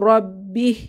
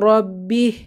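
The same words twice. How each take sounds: Both takes have the same delivery.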